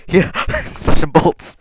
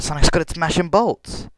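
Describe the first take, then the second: First: Laughing and slow, giggling through the words; real giggle on a misread line; laughing at own slip. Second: Said in the usual way. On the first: Real, not acted. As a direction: crack up while repeating the mistake.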